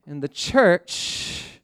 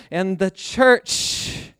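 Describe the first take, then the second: No difference in how they are said.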